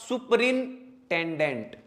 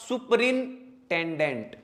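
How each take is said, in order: First: The middle 'n-ten' part of the word is pronounced. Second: The same.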